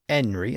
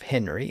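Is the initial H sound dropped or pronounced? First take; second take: dropped; pronounced. First: The word starts without an H sound. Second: The word starts with a clear H sound.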